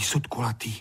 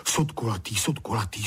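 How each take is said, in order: First: Drilling the words in a hush; whisper. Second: Said in the usual way. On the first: Acted. Honzík memorizing in a whisper. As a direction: whisper it under your breath. Boy repeats words to remember. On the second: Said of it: "hned si je desetkrát zopakoval".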